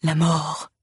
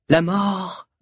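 First: Hollow graveyard intonation; sepulchral voice. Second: Said in the usual way. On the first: A narrator's reading. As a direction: intone it from the tomb. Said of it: "répète d'une voix sépulcrale". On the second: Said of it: "répète".

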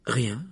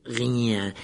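First: Said in the usual way. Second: Drawn-out, distorted caretaker voice; mocking echo. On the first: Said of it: "répondit Harry". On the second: A narrator's reading. Caretaker repeats Harry's answer, mockingly. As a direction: throw the word back with disbelief.

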